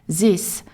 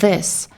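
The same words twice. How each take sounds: First: The word begins without the English th sound. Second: The word begins with the English th sound. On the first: "a French-speaking child learning English might initially say this" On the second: "instead of this"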